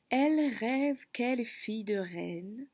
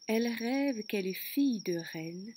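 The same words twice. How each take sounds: First: The vowel sound is stressed and drawn out. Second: The vowel sound is said in a plain way.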